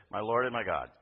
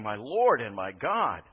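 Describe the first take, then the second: First: Said in the usual way. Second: Slow, louder, heavy with emotion; tearful confession. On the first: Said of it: "he's not just said". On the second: Retold or imitated. Thomas in tears before Jesus, slow emotional cry. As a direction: let it break with feeling, slowly. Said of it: "with tears running down his face".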